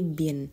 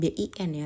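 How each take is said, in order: First: The letters are read together as one word. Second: Each letter is named separately. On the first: The speaker calls it right. "tapi B I N" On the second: The speaker calls it wrong. "pelafalannya juga bukan B I N ya"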